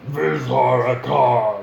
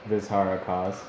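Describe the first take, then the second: First: It is said in a growly orc voice. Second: It is said in a normal voice.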